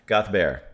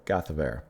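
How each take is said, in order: First: "Gathbert" run together fast in two syllables, kath-bear; singer's quick pronunciation. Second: "Gathbert" spelled out in three syllables, kath-uh-bear; own slower pronunciation. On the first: Retold or imitated. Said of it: "she said it almost in two syllables". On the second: Shown as a demonstration. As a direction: break "Gathbert" into several careful syllables. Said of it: "what I'm saying it in several".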